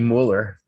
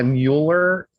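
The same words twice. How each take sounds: First: The name is said with a German vowel. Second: The name starts like the word mule. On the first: This is how it is said in Germany. "in Germany, it would be Mueller" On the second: It links the name to a working animal. "if he wants to be associated with a working animal"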